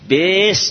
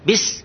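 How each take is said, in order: First: The vowel is drawn out long. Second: The vowel is kept short. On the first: The speaker calls it wrong. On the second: The speaker calls it right.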